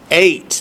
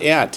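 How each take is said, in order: First: The vowel is a long 'ay' sound. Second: The vowel is a short 'e' sound. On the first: The speaker calls it right. "Eight, not et, it's eight" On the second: The speaker calls it wrong. "not et"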